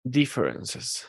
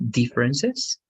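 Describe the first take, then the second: First: Differences repeated with DIF stressed; repeating the stress. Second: Differences with the first syllable DIF stressed. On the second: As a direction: lean on DIF at the start of Differences. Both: Shown as a demonstration. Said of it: "let's repeat this word one more time".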